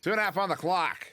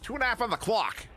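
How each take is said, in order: First: Said in the usual way. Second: Higher, hammed-up Pittsburgh accent. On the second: Shown as a demonstration. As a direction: lay on a thick Pittsburgh accent for the call. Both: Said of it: "Do that with a Pittsburgh accent".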